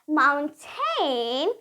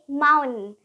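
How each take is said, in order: First: The T in the middle is clearly released. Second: The T is replaced by a glottal stop. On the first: The speaker calls it wrong. "Americans won't say mountain" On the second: The speaker calls it right. "they would say mountain"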